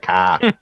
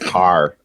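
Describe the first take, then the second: First: The r sound at the end is dropped. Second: The r sound at the end is pronounced. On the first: This is the old Boston way of speaking. "instead of car" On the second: The speaker has moved away from Massachusetts. "started pronouncing my R's"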